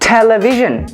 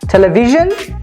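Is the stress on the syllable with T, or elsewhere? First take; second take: T syllable; elsewhere. First: The stress is on the T syllable. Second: The stress is not on the T syllable. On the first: The speaker calls it right. "we say television. We have the stress on T" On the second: The speaker calls it wrong. "We do not say television"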